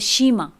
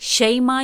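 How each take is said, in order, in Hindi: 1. पहला स्वर एक लंबी 'ee' ध्वनि है। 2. पहला स्वर एक खुली 'ai' ध्वनि है।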